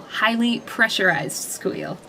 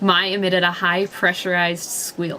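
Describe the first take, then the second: First: Slow correction, Highly stressed; re-read with Highly set apart slowly. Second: Said in the usual way. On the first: Shown as a demonstration. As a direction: say Highly deliberately, slow and rising.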